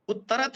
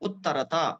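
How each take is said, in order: First: The word ends in a bare 't' sound. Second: The word ends with a vowel after 't'. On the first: The speaker calls it wrong. "जैसे ही बोल दिया आपने तो त हलंत हो गया" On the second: The speaker calls it right. "उसमें त का उच्चारण करिए"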